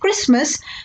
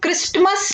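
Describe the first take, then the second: First: The t sound is left silent in the middle. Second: The t sound is pronounced in the middle. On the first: The speaker calls it right. "Because टी is silent" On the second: The speaker calls it wrong. "हम इसको क्रिसमस नहीं pronounce करेंगे"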